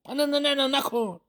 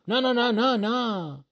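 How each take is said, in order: First: High, panicked no no no; panicked plea. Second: Stubborn refusal. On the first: Shopkeeper panicking as the cup slips, high and frantic. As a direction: cry out to stop the drop. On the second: Shopkeeper refusing to sell the cup, quick higher no's. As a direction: shake it off fast, no no no. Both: Acted.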